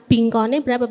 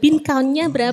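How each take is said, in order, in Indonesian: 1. Bin count digabung menjadi satu kata yang terdengar lokal. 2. Bin count diucapkan dengan pengucapan Inggris. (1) "Biasanya kita bingkonnya berapa?" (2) "agak susah pengucapan dalam bahasa Inggris"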